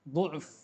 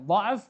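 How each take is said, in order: First: The first vowel is a rounded 'u' sound. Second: The first vowel is an open 'a' sound. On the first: "boleh baca dhu'f" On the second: "Boleh baca dha'f"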